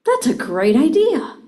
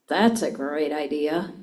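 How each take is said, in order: First: Bright, loud and high "That's a great idea."; enthusiastic. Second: Low, slow, sarcastic "That's a great idea.". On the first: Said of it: "I can say". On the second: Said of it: "Or I can say". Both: Shown as a demonstration.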